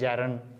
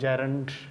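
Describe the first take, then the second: First: The word ends with no d sound. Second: The word ends with an audible d sound. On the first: The speaker calls it right. "डी silent है इसमें" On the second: The speaker calls it wrong. "Right pronunciation है वो जैरंड नहीं है"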